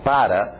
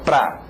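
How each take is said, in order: First: Both syllables of the word are fully pronounced. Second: The word is squeezed into one quick syllable. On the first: "Você tem que começar aprendendo a palavra para" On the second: "você distorcê-la para ficar pra"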